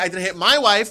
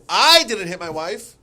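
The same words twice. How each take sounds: First: The word wife carries the main stress. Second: The word I carries the main stress. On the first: Somebody else was hit. "hit somebody else" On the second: Someone else did it. "it means what you said. Someone else did"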